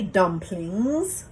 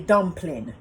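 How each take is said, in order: First: The final G sound is pronounced. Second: The final G sound is dropped. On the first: This is the form used in more Eurocentric settings. "we don't say dumplings" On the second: This is how people of Caribbean descent say it. "We leave off the G"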